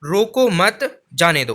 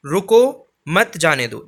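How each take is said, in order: First: Rising "रोको मत", pause, falling "जाने दो"; pause after मत. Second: Firm drawn-out "रुको" set apart from "मत जाने दो"; pause after रुको. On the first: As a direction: hold "रोको मत" together, break, drop on "जाने दो". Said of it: "इसी प्रकार से हमारा तीसरा वाक्य". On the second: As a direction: stretch "रुको", stop, fall through "मत जाने दो". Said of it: "दूसरे वाले में अर्थ स्पष्ट है". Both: Shown as a demonstration.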